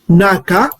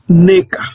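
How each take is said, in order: First: The first vowel is an open 'a' sound. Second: The first vowel is an 'e' sound. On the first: The speaker calls it wrong. "au lieu de dire naka, naka, ça ne se prononce pas naka" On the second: The speaker calls it right. "le Congo prononce quoi? Neka"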